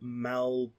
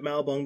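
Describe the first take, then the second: First: The B sound comes before the L sound. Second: The L sound comes before the B sound. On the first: The speaker calls it right. "I will try to pronounce it correctly" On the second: The speaker calls it wrong. "I managed to reverse the B and the L"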